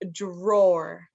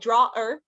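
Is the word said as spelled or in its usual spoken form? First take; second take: usual form; as spelled. First: The word is pronounced in its usual spoken form. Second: The word is pronounced letter by letter, as spelled. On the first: The speaker calls it right. "but it's pronounced drawer" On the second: The speaker calls it wrong. "it looks like drawer"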